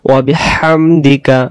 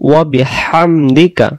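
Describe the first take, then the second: The two takes are said the same way.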